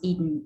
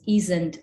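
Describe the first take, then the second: First: The s sound in the word is dropped. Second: The s sound in the word is kept. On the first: "the loss of the fricative in contractions" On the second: "such as isn't"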